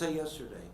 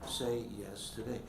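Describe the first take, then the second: First: The phrase is spoken very fast. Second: The phrase is spoken very slowly. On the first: The day before today. "if you say it real fast" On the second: Agree to it now. "I'll say it very slowly"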